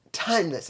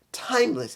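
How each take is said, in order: First: Said in the usual way. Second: Timeless said higher with a falling end; pitched-up timeless. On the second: Shown as a demonstration. Echoing the catchphrase, Timeless pitched higher. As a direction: lift Timeless higher, then let it fall. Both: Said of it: "I'm just doing it once".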